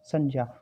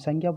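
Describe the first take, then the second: First: It uses the actual, traditional pronunciation. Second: It uses the everyday, commonly heard pronunciation. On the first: "जो वास्तविक उच्चारण है वो क्या है बेटा?" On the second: "हम संज्ञा बोलते हैं बेटा"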